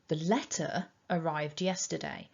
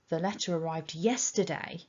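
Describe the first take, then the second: First: The word letter carries the strong stress. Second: The word yesterday carries the strong stress. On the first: It was the letter, not some other item, that arrived then. "I could give really strong emphasis to the word letter" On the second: It arrived on that day, not on some other day. "if I stressed the word yesterday"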